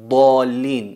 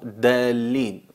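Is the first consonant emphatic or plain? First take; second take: emphatic; plain. First: The first consonant is emphatic and forceful. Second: The first consonant is plain and weak. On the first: The speaker calls it right. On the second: The speaker calls it wrong.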